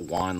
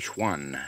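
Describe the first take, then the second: First: The name is pronounced like the Spanish name Juan. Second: The name is pronounced the French way, Schwan. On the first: The speaker calls it wrong. "It's not Juan like Spanish" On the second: The speaker calls it right. "It's actually a French name. It's actually Schwan"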